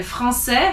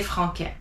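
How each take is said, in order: First: Français with the C as an S sound; soft French C. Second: Franquet, français wrongly said with a K sound; mispronounced hard C. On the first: Teacher showing the cedilla to students, soft C. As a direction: say français with an S in the middle, never a K. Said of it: "has a C C D". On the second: Teacher showing students what to avoid, hard C. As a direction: put a hard K in the middle of franquet. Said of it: "'cause you don't wanna say". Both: Shown as a demonstration.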